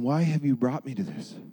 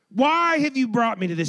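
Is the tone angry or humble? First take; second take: humble; angry. First: The question sounds humble and pleading. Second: The question sounds angry and accusing. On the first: The speaker brings frustration to God without anger. The speaker calls it right. "Do you see the difference there?" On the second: The speaker blames God in anger. The speaker calls it wrong. "I don't necessarily appreciate the tone"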